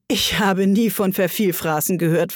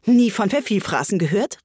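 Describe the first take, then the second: First: Said in the usual way. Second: Higher, astonished echo question; amazed, rising exclamation; full of amazement. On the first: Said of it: "warf Alice ein". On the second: Acted. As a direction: throw it back in disbelief. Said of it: "voller Verwunderung".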